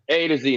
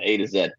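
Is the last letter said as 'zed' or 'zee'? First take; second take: zee; zed. First: The last letter is pronounced 'zee'. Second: The last letter is pronounced 'zed'. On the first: This is the American way of saying it. The speaker calls it right. "from A to Z sounds better. Like I got from A to Z" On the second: This is the non-American way of saying it. The speaker calls it wrong. "not A to Z"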